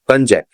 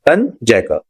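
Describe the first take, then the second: First: The word ends without any R sound. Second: The word ends with an audible R sound. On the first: The speaker calls it right. "इसको कंजैक बोलते हैं" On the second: The speaker calls it wrong. "इसको रा नहीं बोलते"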